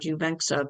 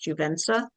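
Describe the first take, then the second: First: The middle consonant is pronounced as 'ks'. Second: The middle consonant is pronounced as 's'. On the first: The speaker calls it wrong. "I always pronounce the X in there" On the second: The speaker calls it right. "but it's Juvensa"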